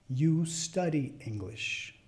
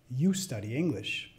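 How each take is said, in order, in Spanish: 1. Se dice a velocidad media. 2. Se dice a velocidad natural rápida. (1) "a la segunda vez de velocidad media" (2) "al final las voy a decir como las diría a otro hablante nativo"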